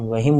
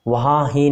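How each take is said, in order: First: The sounds merge into one word. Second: It is said as two separate words. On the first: The speaker calls it right. "हम वहीं बोलेंगे" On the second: The speaker calls it wrong. "नहीं बोलकर"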